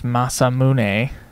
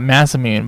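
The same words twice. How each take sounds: First: The name is said with a Japanese-style pronunciation. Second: The name is said with an English-style pronunciation. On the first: The speaker calls it right. "but I know it's Masamune Prize" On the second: The speaker calls it wrong. "I want to call it Masamune"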